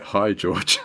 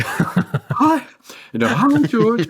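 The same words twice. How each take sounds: First: Said in the usual way. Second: Jumps way higher, squeaking with nervous laughter; squeaky star-struck voice. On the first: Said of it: "And it was kinda like". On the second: Retold or imitated. Answering George on the phone, star-struck high squeak. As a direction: voice cracks up high, too excited to stay cool. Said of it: "My voice changed".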